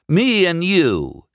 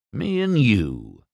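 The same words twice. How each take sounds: First: High, loud, drawn-out incredulity; unbelieving. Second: Slow, measured dare with falling end; cool challenge. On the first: McQueen repeats Doc's race challenge, unbelieving. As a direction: echo it slowly in scoffing disbelief. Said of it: "he said, unbelieving". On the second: Doc challenges McQueen to race, coolly. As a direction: lay it down slowly as a dare. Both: A narrator's reading.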